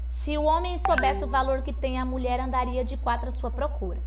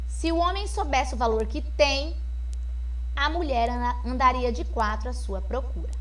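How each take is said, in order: First: It is read quickly with no pause anywhere. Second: There is a pause after the word tem. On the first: "não tem pontuação nenhuma, então eu não tenho pausa para respirar" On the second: "E a vírgula agora após o tem"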